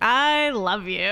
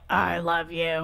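First: It is said laughingly, with amusement. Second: It is said angrily, through gritted teeth.

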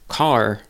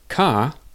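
First: The final R is fully and strongly pronounced. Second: The final R is dropped completely.

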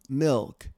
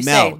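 First: The vowel sounds like 'ih' as in 'bit'. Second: The vowel sounds like 'eh' as in 'bet'. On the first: "I don't say the word milk"

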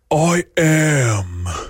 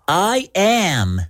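First: It is said in a normal voice. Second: It is said in a high voice.

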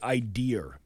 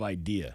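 First: The word ends with an added r sound. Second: The word ends on a plain vowel, no r. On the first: This is the regional dialect form. "my mother used to say idear instead of idea" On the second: This is the usual form. "instead of idea"

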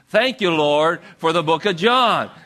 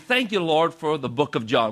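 First: It is said loudly with lots of enthusiasm. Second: It is said at a calm, ordinary volume. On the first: "let's say it with a lot of enthusiasm" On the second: "Just repeat after me"

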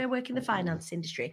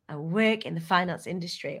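First: It is said in a sorry, apologetic tone. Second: It is said in a proud, confident tone.

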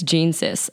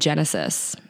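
First: It is split into two words, Gene Sis. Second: It is said as one word, Genesis. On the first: The speaker calls it wrong. "People think it's Gene Sis" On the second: The speaker calls it right. "my website is called The Genesis"

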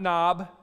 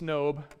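First: The vowel is short, rhyming with 'job'. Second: The vowel is long, rhyming with 'robe'. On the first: The speaker calls it wrong. "not Nob" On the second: The speaker calls it right. "it's Nob. Just kind of like Job, not Job. You know, the book of the Bible"

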